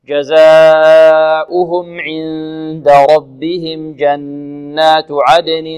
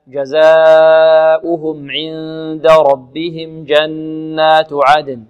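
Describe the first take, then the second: First: The recitation continues without stopping after it. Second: The recitation stops after the last word. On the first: "نبدأ من جزاؤهم إذا كان النفس طويل إلى كلمة الأنهار" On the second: "نقف على كلمة عدن هكذا"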